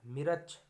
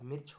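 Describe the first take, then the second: First: मिर्च said 'mi-rach', two syllables; extra vowel. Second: Said in the usual way. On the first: Shown as a demonstration. Teacher showing a mistake, मिर्च split as 'mi-rach'. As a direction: slip an 'a' between r and ch in मिर्च. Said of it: "ये गलत है". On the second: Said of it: "होता है".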